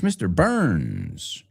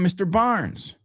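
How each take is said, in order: First: The surname has a central 'ur' vowel. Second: The surname has an open 'ar' vowel. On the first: The speaker calls it right. "It's Mister Burns" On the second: The speaker calls it wrong. "I hear everybody call him Mister Barnes"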